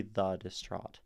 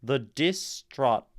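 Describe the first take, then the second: First: Said in the usual way. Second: Slow, loud "The distraught" with weight on "dis"; forced wrong stress. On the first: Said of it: "or maybe the distraught". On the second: Shown as a demonstration. Teacher showing how odd misplaced weight sounds, forced stress. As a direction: hit "dis" hard, breaking up "distraught". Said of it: "try to force weight onto dis".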